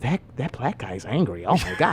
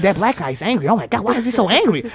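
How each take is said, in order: First: Low, hushed imitation of gossiping passengers; mock whisper. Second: Lightly voiced shocked passengers; mimicked onlookers. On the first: Passengers gossiping about him, mock whisper. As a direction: drop it low and soft, mimicking onlookers. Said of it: "I heard every whisper". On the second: Passengers talking about him, lightly mimicked alarm. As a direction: repeat the gossip aloud, mimicking them. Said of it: "they was like".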